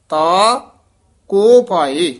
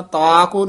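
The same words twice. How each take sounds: First: ਤਾ said loudly alone, then a pause before ਕੋ ਪਾਏ; pause after ਤਾ. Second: ਤਾ ਕੋ said fast as one phrase with no pause; run together. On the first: Teacher modelling the correct pause after ਤਾ, loud and deliberate. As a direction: break clearly after ਤਾ, stressing it. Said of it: "ਇਸ ਤਰ੍ਹਾਂ ਉਚਾਰਨ ਕਰਨਾ". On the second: Teacher showing the wrong way, rushing ਤਾ ਕੋ together. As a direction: say ਤਾ ਕੋ quickly without a break. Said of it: "ਤਾ ਕੋ ਨਹੀਂ ਕਹਿਣਾ". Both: Shown as a demonstration.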